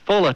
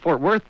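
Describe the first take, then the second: First: The name is squeezed together, in a local way. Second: Both words are said clearly, in a standard way. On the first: "this lady said, oh, Fulla" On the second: "instead of Fort Worth"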